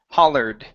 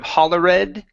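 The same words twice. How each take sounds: First: The ending adds no extra syllable. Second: The ending is said as an extra syllable. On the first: The speaker calls it right. "This word here would be hollered" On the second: The speaker calls it wrong. "Instead of"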